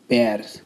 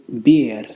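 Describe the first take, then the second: First: The final R is breathy, almost an S. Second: The final R is rolled. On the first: "You just blow the air out and you could almost hear the slight sound of an S" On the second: "You would pronounce it bir"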